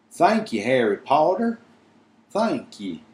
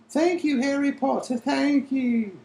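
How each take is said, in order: First: Breathless elf. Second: Much higher, breathless elf squeak; squeaky elf voice. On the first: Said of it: "said Dobby breathlessly". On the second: Dobby thanking Harry Potter in a squeaky elf voice. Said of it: "said Dobby, breathlessly rubbing his head". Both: Acted.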